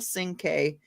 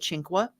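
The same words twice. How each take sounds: First: The name is said with an American pronunciation. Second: The name is said with an Italian pronunciation. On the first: "we Americanized it" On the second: "they do the Italian pronunciation"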